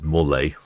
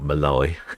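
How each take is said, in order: First: The first vowel sounds like 'more'. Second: The first vowel sounds like 'ma'. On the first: The speaker calls it right. "So it's Morley" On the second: The speaker calls it wrong. "not Malay"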